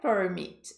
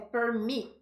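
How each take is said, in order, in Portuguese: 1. A tônica está na primeira sílaba. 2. A tônica está na segunda sílaba. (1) "não é permit" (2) "Mit é o mais forte"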